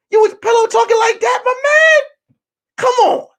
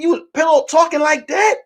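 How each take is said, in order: First: Very high, loud screech of disbelief; outraged shout. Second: High, rising disbelief; incredulous accusation. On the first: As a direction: blow up at a friend, hammed-up. Repeats accusation, escalating to shout. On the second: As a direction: question a friend in retold indignation. First take, confronting friend. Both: Retold or imitated.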